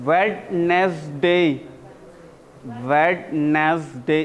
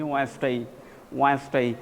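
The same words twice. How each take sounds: First: Wednesday drawn out very slowly with every letter sounded, wed-nes-day; the long wrong way to say Wednesday; long spelled-out Wednesday. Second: Wednesday said quick as wenz-day, the d silent; the correct short Wednesday. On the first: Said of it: "इसका pronunciation Wednesday". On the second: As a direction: clip Wednesday to two syllables, wenz-day. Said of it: "short में कर दिए". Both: Shown as a demonstration.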